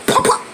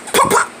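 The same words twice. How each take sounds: The two takes are said the same way.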